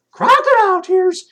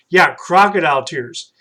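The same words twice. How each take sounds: First: High, loud puppet asking "Crocodile tears?". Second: Said in the usual way. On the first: Acted. Puppet Troy repeats the new phrase.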